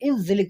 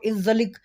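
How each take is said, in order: First: The last consonant is not a g sound. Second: The last consonant is a hard g sound. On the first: This is how it is said in Dubai, Bahrain, Qatar and Kuwait. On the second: This is how it is said in Saudi Arabia.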